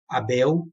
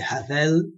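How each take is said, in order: First: The middle consonant is a b sound. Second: The middle consonant is a v sound. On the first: The speaker calls it wrong. "não é com a pronúncia da letra B" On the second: The speaker calls it right. "é com a pronúncia da letra V"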